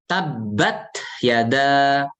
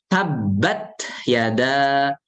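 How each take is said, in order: The two takes are said the same way.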